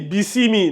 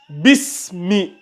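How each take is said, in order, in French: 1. On entend une voyelle en plus entre le s et le m. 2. Le s enchaîne directement sur le m. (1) "Toi, tu lis bisimi" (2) "Pas bisimi"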